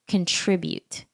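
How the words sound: It is said the American way. "the American way of saying this word is um"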